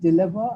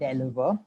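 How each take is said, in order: First: The first syllable sounds like 'dill'. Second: The first syllable sounds like 'del'. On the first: The speaker calls it right. "It's deliver" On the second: The speaker calls it wrong. "and not deliver"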